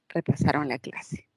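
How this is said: The pitch falls at the end. It states a fact.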